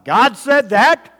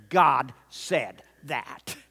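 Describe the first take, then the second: First: High, loud GOD SAID THAT rising in doubt; questioning God. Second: Slow GOD SAID THAT, each word separate; declaring. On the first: Acted. Preacher mimicking those questioning God, loud high rise on THAT. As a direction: challenge it loudly, slow, lifting THAT. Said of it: "to where we're questioning God". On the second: Shown as a demonstration. Preacher modeling faith's declaration, slow measured GOD SAID THAT. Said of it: "We need to declare".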